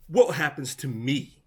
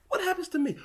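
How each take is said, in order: First: Said in the usual way. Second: "What happens to me?" jumping much higher and urgent; sharp repeated question. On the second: Real, not acted. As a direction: push it up high, insisting on an answer.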